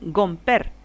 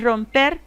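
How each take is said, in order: First: The word begins with a G sound. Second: The word begins with an R sound. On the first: The speaker calls it wrong. "el rotacismo, ... dicen gomper" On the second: The speaker calls it right. "en lugar de decir romper"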